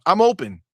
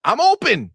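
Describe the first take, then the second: First: Said in the usual way. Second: "I'm open" raised and louder on open; first, insistent "I'm open"; emphatic. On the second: Real, not acted. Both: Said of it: "to be clear".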